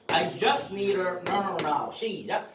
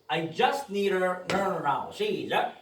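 Both takes have the same delivery.

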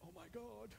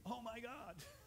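First: It sounds groaning and dismayed. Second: It sounds joyful and praising. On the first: The day ahead feels like a burden. The speaker calls it wrong. "Instead of saying" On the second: The day starts with hope in God. The speaker calls it right.

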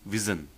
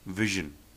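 First: The middle consonant is not a 'zh' sound. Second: The middle consonant is a 'zh' sound. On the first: The speaker calls it wrong. "which actually is the wrong pronunciation" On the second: The speaker calls it right. "they would always produce the sound of Z, as in vision"

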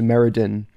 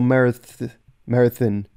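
First: The middle consonant is a D sound. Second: The middle consonant is a TH sound. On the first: The speaker calls it wrong. "as opposed to" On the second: The speaker calls it right. "the two D's make a TH sound. So th. So Myrddin"

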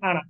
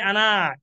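First: The final vowel is kept short. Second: The final vowel is held long. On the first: The speaker calls it right. "This alif silent. Only say Anna" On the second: The speaker calls it wrong. "No, not allowed to say ana"

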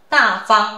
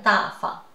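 First: The second syllable keeps its full tone. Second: The second syllable is in neutral tone.

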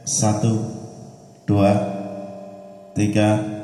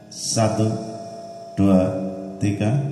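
No difference in how they are said.

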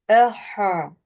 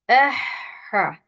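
First: The throat sound is thick and heavy. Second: The throat sound is thin and light. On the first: The speaker calls it wrong. "kalın değil, mesela şöyle değil" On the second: The speaker calls it right. "ince söyledim"

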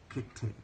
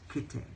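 First: The middle consonant sounds like a crisp T. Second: The middle consonant sounds like a crisp T.

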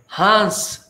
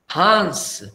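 The two takes are said the same way.

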